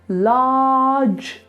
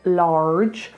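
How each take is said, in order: First: The vowel is an open ah with no R. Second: The R after the vowel is clearly pronounced. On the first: The speaker calls it right. "ah, and then just put a j on the end. Large, large, no er" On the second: The speaker calls it wrong. "you don't want to do large"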